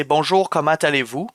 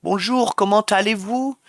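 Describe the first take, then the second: First: Everyday Québécois pronunciation; Quebec French accent. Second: Higher, lilting France French; French-from-France accent. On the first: Streamer shows chat Quebec's greeting, Québécois accent. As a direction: say it as they do in Quebec. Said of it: "in Quebec, we'd say". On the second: Streamer shows chat how France says hello, French accent. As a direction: do French as in France, pitched high. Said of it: "I can't fully do the French accent". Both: Shown as a demonstration.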